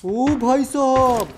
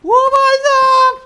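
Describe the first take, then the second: First: Slow, loud, stretched-out exclamation; real awed gamer reaction; drawn-out amazement. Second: Very high, slow full-force scream; real explosive gamer outburst; screamed amazement. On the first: Stunned reaction during gameplay. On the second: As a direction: scream it out, stretching every word. Huge reaction to game action. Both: Real, not acted.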